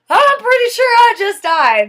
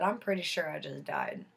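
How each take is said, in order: First: Higher and louder, pressing the point; exasperated insistence. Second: Soft, stunned murmur; dazed and quiet. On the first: Woman insisting to her friend she died, loud and exasperated. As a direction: insist loudly he isn't listening. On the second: Woman telling her friend she just died, soft and stunned. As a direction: say it quietly as if still in shock. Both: Retold or imitated.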